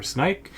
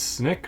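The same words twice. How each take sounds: First: Snyk said as "snike", long i; alternative pronunciation. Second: Snyk said as "snick", short i; first pronunciation option. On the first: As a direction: say snyk to rhyme with "bike". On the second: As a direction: say snyk to rhyme with "brick". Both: Shown as a demonstration. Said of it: "I don't know if I'm pronouncing that".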